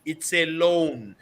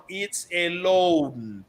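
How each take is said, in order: First: It's a loan said slowly, each word weighted; deliberate stern reminder that it's a loan; slow emphatic reminder. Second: Loan stretched long and falling; very slow repeat with loan held longest; drawn-out stress on loan. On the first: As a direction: lay it down slowly like a warning. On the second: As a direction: drag out loan to hammer it home. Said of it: "it's a loan, people, okay?". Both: Shown as a demonstration.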